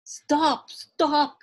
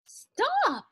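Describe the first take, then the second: First: Loud repeated yell, moderately high; old man's yell. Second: Very high, loud storybook yell; old woman's yell. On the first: Old man calls after the runaway musubi man, loud yell. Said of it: "yelled the little old man". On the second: Old woman calls after the runaway musubi man, high yell. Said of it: "yelled the little old woman". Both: A narrator's reading.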